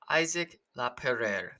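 The name is said with an English pronunciation. "I'm going to go with a pronunciation I think I can hit pretty close to"

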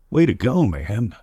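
It sounds genuinely happy for the listener.

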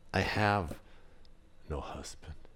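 The voice sounds quiet and ashamed. She is embarrassed about her life. "Was it shame? Did she hang her head?"

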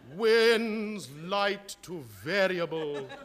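It is said tragically, like a catastrophe.

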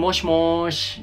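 It is drawn out and sounds playful.

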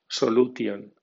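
It is read with Spanish letter sounds. "como si fuera española"

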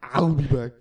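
It is said in a put-on movie accent.

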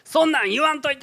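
It sounds clearly angry.

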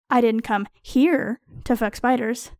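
The word "here" carries the strongest stress. I do that elsewhere, not in this place. "I fuck spiders at other times, in more suitable places"

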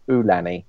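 The name is said in a Hawaiian way. "a lot of the actual Hawaiians were saying Ulani"

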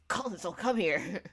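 The line is said in a loud yell. The remark was impossible to miss. "he just literally yelled"

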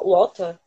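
It is said in a British accent.

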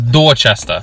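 It is said in a strong Boston accent. The speaker calls it right. "It's Dorchester. Like you got to give it that little oomph"

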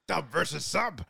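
A deep, growling, monstrous put-on voice. An impression of the monster character. The speaker calls it right. "Okay, do it in a Venom voice"

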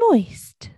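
It is said in a high voice.

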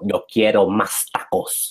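It is said with exaggerated native-like Spanish sounds. The speaker is trying hard to sound native. "really trying to sound like the native"

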